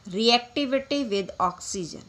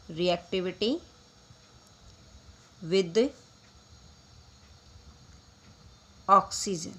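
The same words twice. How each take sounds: First: Said in the usual way. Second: "Reactivity ... with ... oxygen" said word by word with long pauses between; slow dictation. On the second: Shown as a demonstration. Teacher dictates the topic title to students, pausing after each word. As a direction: spell out "Reactivity", "with", "oxygen" as separate slow words for notes.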